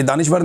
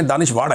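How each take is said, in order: First: Said in the usual way. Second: दानिश्वर ending in a hard retroflex flap, "danish-waṛ"; mock the word दानिश्वर by turning its final r into a heavy ड़; mocking mispronunciation. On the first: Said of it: "ये दानिश्वर नहीं है". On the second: Shown as a demonstration. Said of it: "ये दानिश्वर नहीं है, दानिश्वर है".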